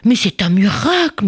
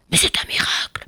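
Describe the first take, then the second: First: Said in the usual way. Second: Breathless whisper of amazement; awed companion whispering. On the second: A narrator's reading. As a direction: whisper it in awe. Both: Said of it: "murmura un des rabbins".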